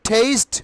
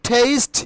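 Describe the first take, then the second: The two takes are said the same way.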